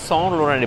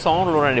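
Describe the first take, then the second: First: The name is pronounced the French way. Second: The name is pronounced the French way.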